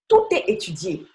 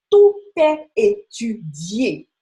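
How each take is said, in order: First: Said in the usual way. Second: Slow and louder, every syllable weighted; slow emphatic. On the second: Real, not acted. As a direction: lean hard on "tout est étudié", slowly.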